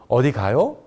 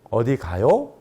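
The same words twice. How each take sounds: Both takes have the same delivery.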